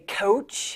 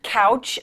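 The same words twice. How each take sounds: First: "coach", couch with a long oh vowel, drawn out; Boston-habit vowel. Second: Said in the usual way. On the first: Shown as a demonstration. Co-anchor owning up to a Boston habit, "coach" said for couch with a long oh. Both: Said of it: "picked up some of the bad habits from Boston".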